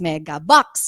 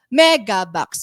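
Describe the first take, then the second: First: The emphasis is on the third syllable. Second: The emphasis is on the first syllable. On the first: "and then the final one" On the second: "So first"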